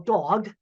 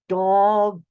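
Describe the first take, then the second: First: The word is said at normal speed. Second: The word is said slowly, sounds drawn out.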